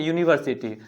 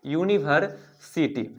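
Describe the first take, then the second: First: Said in the usual way. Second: यूनिवर्सिटी said slowly, syllable by syllable, starting with a clear "yu"; slow careful demo word. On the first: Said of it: "तो आप अगर सही से देखें". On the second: Shown as a demonstration. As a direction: spell out यूनिवर्सिटी slowly like a teacher, stressing the opening "yu" sound. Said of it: "इसका उच्चारण करिए".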